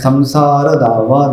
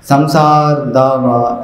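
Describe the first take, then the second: First: The final short vowel of samsara is kept. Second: The final short vowel of samsara is dropped. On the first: The speaker calls it right. "संसार नहीं पढ़ना है" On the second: The speaker calls it wrong. "ऐसा नहीं बोलना है"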